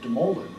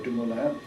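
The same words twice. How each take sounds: First: The name is said with an English-style pronunciation. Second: The name is said with a French pronunciation. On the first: This is how it was said after learning English. "gravitated to a pronunciation of" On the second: This is how it was said growing up in France. "he pronounced it"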